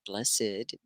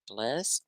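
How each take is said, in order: First: BLESSED softly as "bless-id"; two syllables. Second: BLESSED softly as "blest"; one syllable. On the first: Teacher lists tricky words, two syllables. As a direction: sound the -ed of BLESSED, lower and softer. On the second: Teacher lists tricky words, one syllable. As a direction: say BLESSED in one beat, lower and softer. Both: Shown as a demonstration. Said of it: "you would think that it was two syllables".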